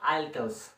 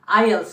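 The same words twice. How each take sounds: First: The letter T is clearly sounded. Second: The letter T is left silent. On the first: The speaker calls it wrong. "not I E L T S or something else" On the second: The speaker calls it right. "It's I E L T S, you have to keep it silent"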